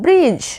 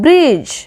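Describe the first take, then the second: The two takes are said the same way.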